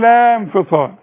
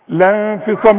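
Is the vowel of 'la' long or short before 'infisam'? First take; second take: long; short. First: The vowel of la is held long before infisam. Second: The vowel of la is short, linked straight on. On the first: The speaker calls it wrong. "مش تقول" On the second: The speaker calls it right. "نلغي الساكن الاولاني عند الوصل ... انما تقول ايه؟"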